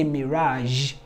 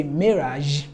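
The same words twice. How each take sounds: First: MIRAGE with weight on RAGE, "mi-RAHZH"; light MI, strong long RAHZH in MIRAGE; second-syllable stress. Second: MIRAGE with weight on MI, "MEE-razh"; first-syllable stress. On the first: Teacher demonstrating a variant, MIRAGE stressed on second syllable. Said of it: "I put the stress on the second syllable". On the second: Teacher demonstrating a variant, MIRAGE stressed on first syllable. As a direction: hit the MI of MIRAGE, then zh. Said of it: "I put the stress on the first syllable". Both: Shown as a demonstration.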